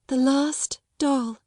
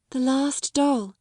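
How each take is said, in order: First: Slower, higher mournful repeat; mournful echo. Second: Slow, higher mournful words. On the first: Grieving girl repeats her father's last gift, mournfully. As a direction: echo the words even more sadly. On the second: Grieving girl speaks of her father's last gift, mournfully. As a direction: linger sadly over the doll. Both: A narrator's reading. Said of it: "her little mournful voice had an odd sound".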